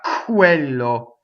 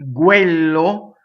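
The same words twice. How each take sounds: First: The opening k has a strong puff of air. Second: The opening k has no puff of air. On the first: This is the English way of saying it. The speaker calls it wrong. "not quello, right? Not k" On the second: This is the Italian way of saying it. The speaker calls it right. "You see how you practice?"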